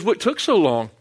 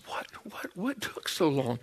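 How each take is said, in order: First: Said in the usual way. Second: Wife's near-silent whisper, retold; hushed mock demand, barely voiced; imitated whispered impatience. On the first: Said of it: "she goes". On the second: Wife waiting outside the lab confronts her husband, in a hushed whisper. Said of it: "She's got this".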